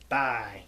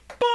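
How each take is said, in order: First: It is said in the speaker's normal voice. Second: It is said in a Minya character voice.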